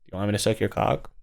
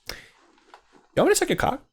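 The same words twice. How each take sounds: First: It is said with no enthusiasm. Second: It is said with eager enthusiasm.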